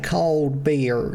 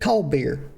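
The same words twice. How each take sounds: First: The two words are said clearly apart. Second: The two words are blended into one. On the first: "it's two words" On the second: "Like it's one fucking word"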